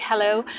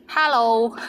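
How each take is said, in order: First: Said in the usual way. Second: Hello in a Cantonese accent, with an open "ha" vowel. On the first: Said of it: "So of course you can say in English like hello". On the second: Shown as a demonstration. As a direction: say hello the Cantonese way, "hæ-lo", with the first syllable punched louder. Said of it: "with the Cantonese accent".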